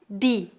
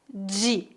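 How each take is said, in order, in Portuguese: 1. Fala-se do jeito do Nordeste brasileiro. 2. Fala-se do jeito do Sudeste brasileiro. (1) "Em algumas regiões do Nordeste, as pessoas pronunciam di" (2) "A pronúncia mais comum na região sudeste"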